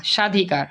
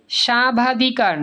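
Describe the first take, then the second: First: No b between সা and ধি in সাধিকার; correct pronunciation. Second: সাবাধিকার slowly, with the ব fully sounded; wrong pronunciation. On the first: (সাধিকার, ব অনুচ্চারিত) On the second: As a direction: voice the extra বা in সাবাধিকার. (সাবাধিকার, ব উচ্চারিত) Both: Shown as a demonstration. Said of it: "সাবাধিকার না সাধিকার".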